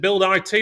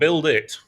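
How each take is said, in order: First: The last part is spelled as two letters. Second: The last part is said as one word. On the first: "Is it Build I T" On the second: "or Build It?"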